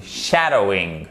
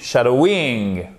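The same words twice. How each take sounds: First: "shadowing" stressed on the first syllable, SHAdowing, falling lower; correct tonic stress. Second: "shadowing" leaning on the end, shadoWING; wrong syllable stress. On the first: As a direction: hit SHA and let the rest of "shadowing" drop. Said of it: "la syllabe derrière est porteuse". (« shadowing » accentué sur la première syllabe) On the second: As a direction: drag out the last syllable of "shadowing". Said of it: "si vous appuyez pas sur la bonne syllabe". (« shadowing » mal accentué, appuyé sur la fin) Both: Shown as a demonstration.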